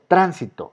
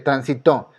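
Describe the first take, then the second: First: The stress is on the first syllable. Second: The stress is on the third syllable. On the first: "es esdrújula. ¿Está en la tercera o está en la antepenúltima?" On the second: "aquí cae la fuerza y es una palabra aguda, está en la primera y en la última"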